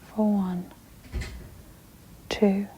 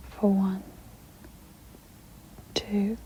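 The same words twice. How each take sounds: The two takes are said the same way.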